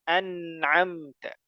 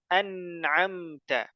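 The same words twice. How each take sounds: The two takes are said the same way.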